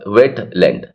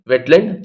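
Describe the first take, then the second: First: Wet and land are said with a break between. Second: Wet and land are run together without a break. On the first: This is the British or standard style. "वेट और land के बीच में अलग वो आती है बात" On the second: This is the American style. "Wetland चिपका करके बोलना ठीक है"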